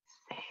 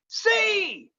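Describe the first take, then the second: First: The word is whispered softly. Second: The word is shouted loudly.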